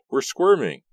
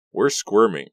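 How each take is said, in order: First: Pitched-up mock whining repeat of "We're squirming"; higher mock whine. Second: Wry complaint. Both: A narrator's reading. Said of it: "Ricky said".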